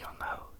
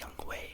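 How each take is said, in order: First: The second syllable is said like 'ho'. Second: The second syllable is said like 'way'. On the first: The speaker calls it wrong. "is not pronounced Young Ho" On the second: The speaker calls it right. "It's pronounced some other way, like Young Wei"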